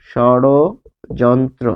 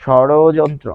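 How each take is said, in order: First: ষড়যন্ত্র drawn out very slowly, each syllable separate. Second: Said in the usual way. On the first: Shown as a demonstration. Teacher slowly sounding out ষড়যন্ত্র for students. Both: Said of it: "যখনই আপনি এই ড বলছেন".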